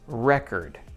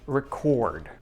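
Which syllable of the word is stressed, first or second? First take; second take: first; second. First: The stress is on the first syllable. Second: The stress is on the second syllable. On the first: It is a noun. "When we stress the first part" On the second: It is a verb or adjective. "when we stress the second part"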